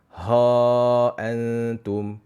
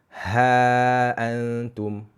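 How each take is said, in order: First: The h is said thick and heavy. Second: The h is said thin and light. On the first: The speaker calls it wrong. "Jangan baca" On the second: The speaker calls it right. "Tetapi bacalah"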